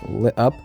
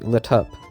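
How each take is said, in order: First: The T is a glottal stop. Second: The T is aspirated with a puff. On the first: "it can be pronounced with a glottal stop" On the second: "or with an aspirated T"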